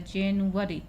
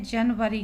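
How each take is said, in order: First: जनवरी said as जेन-यू-अरी, English style; English pronunciation. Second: जनवरी said the Hindi way, जन-व-री; Hindi pronunciation. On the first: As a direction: stretch जनवरी into जेनुअरी. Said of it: "English में जो उच्चारण होता है". (अंग्रेज़ी उच्चारण में जेनुअरी) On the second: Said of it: "लेकिन English में जो उच्चारण". (हिंदी उच्चारण में जनवरी) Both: Shown as a demonstration.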